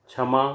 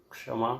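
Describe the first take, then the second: First: क्षमा said as chhama, with chh; क्षमा with a chh sound instead of ksh; wrong chha sound. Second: क्षमा said as kshama, with ksh; क्षमा with a clear ksh cluster; correct ksh. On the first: Teacher showing the mistake, chh. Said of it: "क्ष के स्थान पर छ". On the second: Teacher giving the correct ksh sound. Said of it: "शुद्ध उच्चारण". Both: Shown as a demonstration.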